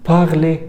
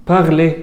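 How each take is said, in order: No difference in how they are said.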